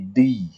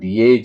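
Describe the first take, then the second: First: The vowel is drawn out somewhat long. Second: The vowel is not drawn out long. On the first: The speaker calls it right. "tapi di, agak panjang" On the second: The speaker calls it wrong. "tidak dibaca dengan die"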